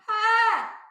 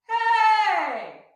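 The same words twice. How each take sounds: First: A tense, strained yell from the throat. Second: A light yell with an open throat.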